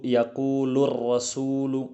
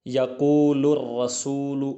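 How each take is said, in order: The two takes are said the same way.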